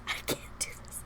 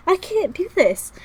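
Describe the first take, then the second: First: Hushed, helpless protest; overwhelmed whisper. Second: Very high, loud cry; high-pitched, loud, helpless protest; overwhelmed wail. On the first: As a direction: voice gone to a whisper. Same words, voice drops away. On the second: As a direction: wail it out, at breaking point. Same words, voice leaps up. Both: Real, not acted.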